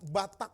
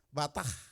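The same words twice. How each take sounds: First: The word ends with a k sound. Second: The word ends with an h sound. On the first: The speaker calls it wrong. "bukan batak" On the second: The speaker calls it right. "pakai H"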